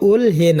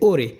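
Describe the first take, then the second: First: An l followed by h is heard. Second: A single r-like sound, no h, is heard. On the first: The speaker calls it wrong. "এটা ওল হে না" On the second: The speaker calls it right. "হবে ওরে"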